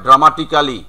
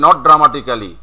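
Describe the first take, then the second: First: Dramatically clipped to dramatikli, a bit louder; correct pronunciation. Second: Dramatically with the full -kali ending; wrong version. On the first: Teacher shows the clipped dramatikli. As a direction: says dramatically as dramatikli, with no ক্যা. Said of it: "ধরো dramatically আমাদের ব্যবহার করতে হয়". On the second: Teacher marks dramatically with the full -kali ending as wrong. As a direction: says dramatically the local way, -kali drawn out. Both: Shown as a demonstration.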